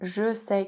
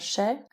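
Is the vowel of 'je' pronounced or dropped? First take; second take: pronounced; dropped. First: The e of je is pronounced. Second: The e of je is dropped.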